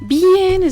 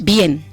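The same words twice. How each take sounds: First: It is said in a warm, open way. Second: It is said in a curt, dry way.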